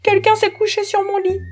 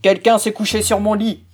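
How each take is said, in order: First: It is said in a medium voice. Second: It is said in a big, deep voice.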